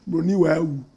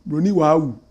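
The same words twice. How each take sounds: No difference in how they are said.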